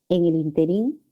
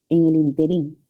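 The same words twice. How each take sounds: Both takes have the same delivery.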